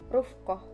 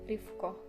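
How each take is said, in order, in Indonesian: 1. Huruf vokal pertama adalah bunyi 'u'. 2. Huruf vokal pertama adalah bunyi 'i'. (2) "kabilah Qais itu mengkasrohkannya"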